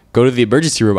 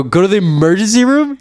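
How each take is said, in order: First: Said in the usual way. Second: High-pitched, disbelieving question; incredulous echo. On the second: Retold or imitated. Patient repeating the clerk's advice back to him, incredulous.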